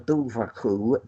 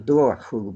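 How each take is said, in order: First: The middle consonant sounds like a v. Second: The middle consonant sounds like a w. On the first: This is the name as the old writer gave it. "he called it the Dúbharcú" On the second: This is how some regions say it today. "in parts of Ireland today it's pronounced the Duarcú"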